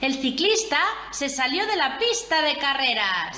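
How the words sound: It is said with an exclaiming, surprised tune. It expresses surprise at what happened.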